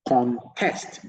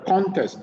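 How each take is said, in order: First: The stress is on the second syllable. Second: The stress is on the first syllable. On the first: It is used as a verb. "the verb, the stress is on the second syllable" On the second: It is used as a noun. "the noun. The stress is on the first syllable"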